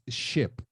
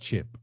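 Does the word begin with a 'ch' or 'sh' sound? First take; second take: sh; ch. First: The word begins with a 'sh' sound. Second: The word begins with a 'ch' sound. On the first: The speaker calls it right. "it's ship" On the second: The speaker calls it wrong. "not chip"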